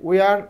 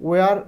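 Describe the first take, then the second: Both takes have the same delivery.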